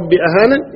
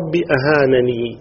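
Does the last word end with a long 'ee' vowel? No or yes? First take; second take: no; yes. First: The last word ends without a final 'ee' vowel. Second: The last word ends with a long 'ee' vowel.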